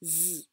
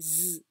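First: The sound is spoken with full voice. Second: The same.

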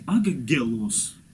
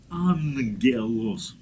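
First: The double gamma is said as a hard g. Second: The double gamma is said as a nasal ng. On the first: The speaker calls it wrong. "Это не ангелос" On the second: The speaker calls it right. "это ангелос, ангел"

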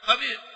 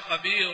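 First: The r ends the word silent and sounds light. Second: The r carries a u vowel and sounds heavy. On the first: "هنا ليش رقق؟ ... لأن أنا لم أنطقها مضمومة" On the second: "نطقت الآن إيه رأيش؟ مضمومة"

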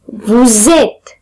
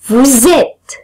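The two takes are said the same way.

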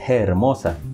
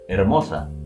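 First: The word starts with a soft breathy h sound. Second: The word starts directly with the vowel, no h. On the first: This is how it was said in older times. "se pronunciaba con aquel suspiro" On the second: This is how it is said today. "la pronunciación que tenemos hoy en día"

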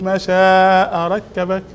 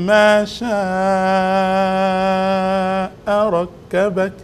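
First: The last word is rushed out quickly. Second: The last word keeps an even, measured rhythm. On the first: The speaker calls it wrong. "مشيت يركبك بسرعة يعني" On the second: The speaker calls it right. "هكذا"

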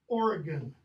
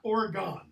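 First: The name is said the way locals say it. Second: The name is said the way outsiders say it. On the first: The speaker calls it right. "if you're from this state, how's it pronounced? Oregon" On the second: The speaker calls it wrong. "not Oregon, as some people pronounce it"

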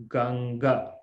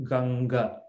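The two takes are said the same way.

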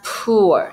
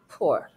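First: The vowel is a long 'oo' as in 'spoon'. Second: The vowel is a short 'oo' as in 'good'. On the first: The speaker calls it wrong. "It's not poor. It's not long double O sound" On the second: The speaker calls it right. "Or you can make short double O sound"

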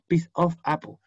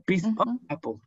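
First: The word "of" is pronounced fully and clearly. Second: The word "of" is shortened to a brief sound. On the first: The speaker calls it wrong. "No es piece of apple" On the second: The speaker calls it right. "Lo puedo achicar y por eso queda como un sonido más corto"

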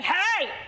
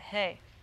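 First: It is shouted loudly and aggressively. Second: It is said softly and casually.

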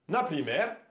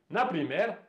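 No difference in how they are said.

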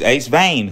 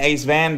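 First: The name has a long vowel, rhyming with 'rain'. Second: The name has a short vowel, rhyming with 'man'. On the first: The speaker calls it right. "It's Ace Vane" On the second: The speaker calls it wrong. "So if you're saying Ace Van, that's wrong"

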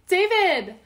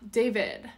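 First: The name is called out loudly. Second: The name is said quietly. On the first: The person being called is far away. "if like he's far and I'm calling him like" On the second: The person being addressed is nearby. "But if it's like"

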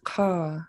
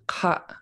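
First: The vowel starts high and falls low. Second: The vowel is cut off with a glottal stop. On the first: This is the Sanya and Hinya Kwan dialect form. "where it goes high and then low" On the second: This is the Tongass dialect form. "So you glottalize the end of it"

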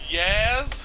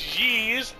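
First: The vowel sounds like 'ah'. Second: The vowel sounds like 'ee'. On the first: The speaker calls it wrong. "We were calling it Yaz" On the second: The speaker calls it right. "So it's Yeez"

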